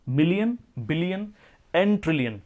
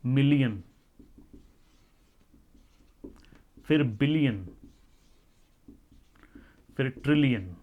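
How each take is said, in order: First: million and billion rising, trillion falling, run together; quick recap list. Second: Each unit said low and falling, with long pauses; million, billion, trillion spaced out one by one, each falling; slow listing. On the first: Teacher quickly recaps units for students in one list. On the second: Teacher slowly introduces units to students, each word falling. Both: Shown as a demonstration. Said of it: "हजार के बाद उसमें आ जाते हैं".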